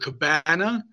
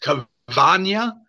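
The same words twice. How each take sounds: First: The word is pronounced the English way. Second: The word is pronounced the Spanish way. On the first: The speaker calls it wrong. "It's not actually called a Cabana" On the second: The speaker calls it right. "I looked up the correct Spanish pronunciation. It's pronounced Cabana"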